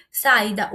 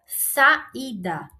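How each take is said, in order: First: Saída again, louder, í stressed. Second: Saída with a stressed í. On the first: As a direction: punch the í of saída. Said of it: "o i fica sozinho". (saída com mais força no í) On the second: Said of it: "vou botar o acento". (saída com o í tônico) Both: Shown as a demonstration.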